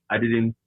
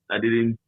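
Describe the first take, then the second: No difference in how they are said.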